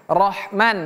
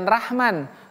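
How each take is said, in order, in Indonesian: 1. R-nya tebal, dengan vokal gelap dan membulat. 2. R-nya tipis, dengan vokal biasa dan terbuka. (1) "bukan ra, tapi ro"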